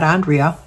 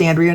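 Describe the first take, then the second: First: Andrea with first vowel as in "on"; alternative pronunciation. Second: Andrea with first vowel as in "and"; name pronunciation. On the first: Offering the other version of a name, Andrea said AHN-dree-a. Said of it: "hopefully it's Andrea". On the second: Checking a viewer's name, Andrea said AN-dree-a. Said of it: "not Andrea". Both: Shown as a demonstration.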